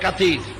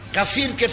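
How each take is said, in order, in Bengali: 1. মাঝের ব্যঞ্জনটি 't' ধ্বনি। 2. মাঝের ব্যঞ্জনটি 'th' ধ্বনি।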